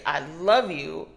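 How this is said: The stress is on "love".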